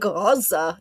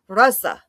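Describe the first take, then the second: First: It begins with a plain hard g sound. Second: It begins with a throaty, Arabic-style gh sound. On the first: The speaker calls it wrong. "I was saying Gaza" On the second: The speaker calls it right. "I can do it now"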